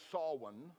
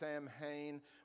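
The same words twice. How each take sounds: First: Several letters are not sounded as they look. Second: Every letter is sounded as it looks. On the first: The speaker calls it right. "but it's really pronounced Samhain" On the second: The speaker calls it wrong. "or Samhain"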